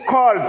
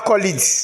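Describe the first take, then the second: First: The ending adds no extra syllable. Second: The ending adds an extra syllable. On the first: The speaker calls it right. "on dit col" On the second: The speaker calls it wrong. "Ce n'est pas colid"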